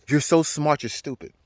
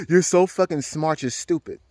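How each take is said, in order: First: A slow, faintly otherworldly voice that drops to almost nothing at the end; lightly voiced inner voice, slow and fading; voice of the mushrooms. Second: Slow, disbelieving echo in his own voice; incredulous repeat. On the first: The mushrooms talking to him in a slow, fading voice. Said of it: "It said". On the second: Retold or imitated. Repeating the mushrooms' words back, slow and disbelieving. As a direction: repeat it back in mild amazement, slowed down. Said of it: "I bust out laughing".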